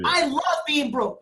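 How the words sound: It is said with strong passion.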